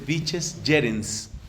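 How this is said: It uses the Italian church pronunciation of Latin. "al modo italiano, que es lo más común en la iglesia, se dice"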